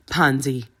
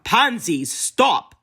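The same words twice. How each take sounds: First: Low warning. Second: Higher, louder sharp command; almost shouting. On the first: Theo restrains Pansy with a low warning. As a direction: warn her gently but firmly. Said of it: "a warning in his eyes". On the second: Theo nearly shouts to stop Pansy, losing control. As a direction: lose control and shout her name. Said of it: "Theo almost shouted now". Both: A narrator's reading.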